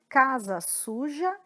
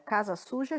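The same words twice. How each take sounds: First: It is said at a slow pace. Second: It is said at a fast pace.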